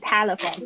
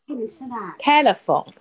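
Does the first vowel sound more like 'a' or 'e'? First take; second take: a; e. First: The first vowel is wide open, like 'a'. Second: The first vowel is less open, like 'e'. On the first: The speaker calls it wrong. "嘴巴张太大就会变成telephone，不是telephone" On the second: The speaker calls it right. "是telephone"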